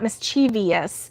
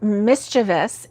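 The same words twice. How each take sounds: First: It is said with four syllables, ending in -vee-us. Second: It is said with three syllables, ending in -vus. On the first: The speaker calls it wrong. "is not" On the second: The speaker calls it right. "there's no es at the end. It's just O U S"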